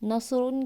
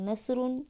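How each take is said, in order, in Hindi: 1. s की आवाज़ भारी और ज़ोरदार है। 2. s की आवाज़ हल्की और सादी है। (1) "स्वाद की जगह सीन" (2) "स्वाद की जगह सीन"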